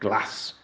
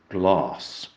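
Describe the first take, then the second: First: The vowel is a short a. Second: The vowel is a long a. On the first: The speaker is from the north or the Midlands. "said glass with a short A" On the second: The speaker wants to seem cultured. "cultured speakers would make a long glass"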